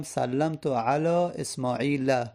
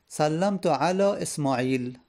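First: اسماعیل ending in a short "a", esmaila; slow example, add "-la" to close اسماعیل; fatha ending. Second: اسماعیل stopped on a bare "l", esmail; slow example, no vowel after اسماعیل; silent final vowel. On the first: Teacher applying the chosen fatha, اسماعیل ending "-la". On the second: Teacher giving an example, اسماعیل left vowelless at the end. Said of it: "من آخرش رو ساکن کردم". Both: Shown as a demonstration.

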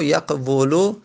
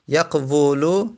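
First: Said in the usual way. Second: یقولو said very slowly, each syllable drawn out; slow drilled word. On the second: Shown as a demonstration. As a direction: spell out یقولو slowly for the class. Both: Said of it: "واو دمه روش سنگینه".

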